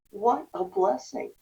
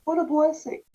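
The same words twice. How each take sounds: First: Slow grateful repeat. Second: Bright, raised voice, louder; a happy exclaim of relief; thankful cry; delighted exclamation. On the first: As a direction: let the relief sink in. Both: Retold or imitated. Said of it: "I remember thinking to myself".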